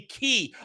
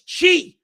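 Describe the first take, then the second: First: The word begins with a hard K sound. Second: The word begins with a CH sound. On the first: The speaker calls it wrong. "they say ki. I fucking hate it when it's ki" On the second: The speaker calls it right. "No, it's chi"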